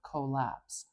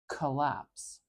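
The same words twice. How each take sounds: First: The first vowel is a full, clear O. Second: The first vowel is a short, weak schwa. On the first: The speaker calls it wrong. "I'm not saying a beautiful, clear O sound" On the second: The speaker calls it right. "I'm saying k, collapse"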